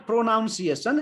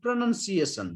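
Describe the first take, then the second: First: Pronunciation said as pro-NOUN-see-ay-shun; wrong pronunciation. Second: Pronunciation said as pra-NUN-see-ay-shun; short NUN in the middle of pronunciation; correct pronunciation. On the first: Teacher showing what it is not, pronunciation with NOUN inside. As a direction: put an OW in the middle of pronunciation. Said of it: "It's not pronunciation". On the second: Teacher giving the right form, pronunciation with NUN, not NOUN. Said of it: "it's a pronunciation". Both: Shown as a demonstration.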